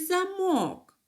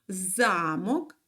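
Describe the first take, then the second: First: The stress is on the second syllable. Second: The stress is on the first syllable. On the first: "а в другому слові на другий" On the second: "В першому слові у нас наголос падає на перший склад"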